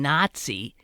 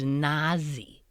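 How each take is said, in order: First: A 't' sound comes before the 'z'. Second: No 't' sound comes before the 'z'. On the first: The speaker calls it right. "there's always like that T yeah. sound in front of the Z" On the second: The speaker calls it wrong. "he kept pronouncing Nazi as Nazi"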